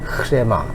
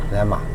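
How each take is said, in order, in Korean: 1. 이 단어는 분명하게 들리는 h 소리로 시작해요. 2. 이 단어는 바로 r 소리로 시작해요. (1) "일부러 소리를 내니까 제가 흐레마 그러지" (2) "보통 레마, 레마 이렇게 발음을 하는 거죠"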